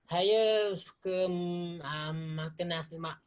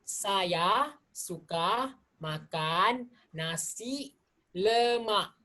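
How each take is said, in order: First: The words are slurred and run together. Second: Each word is clearly and fully articulated. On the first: The speaker calls it wrong. "bukan saja saya percakapan kurang jelas, saya juga uh, slurring my words" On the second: The speaker calls it right. "jika nak dengan jelas, kita harus membuka mulut"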